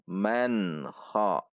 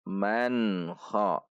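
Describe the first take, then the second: No difference in how they are said.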